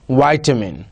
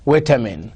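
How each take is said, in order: First: RP "vitamin" with a long i, like "vie-tamin"; British RP. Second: American "vitamin" with a short i, like "vit-amin"; General American. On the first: Teacher modelling RP "vitamin" for students. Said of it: "R P". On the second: Teacher modelling American "vitamin" for students. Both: Shown as a demonstration.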